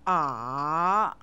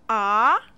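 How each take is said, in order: First: The pitch dips down, then rises. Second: The pitch rises from middle to high. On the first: "The third tone dips down, then rises" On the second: "The second tone begins and rises from middle to high"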